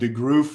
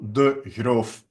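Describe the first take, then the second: First: The name is said with English pronunciation. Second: The name is said with Dutch pronunciation. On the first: The speaker calls it wrong. "English speakers they make it uh, something like" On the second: The speaker calls it right. "in our language it's"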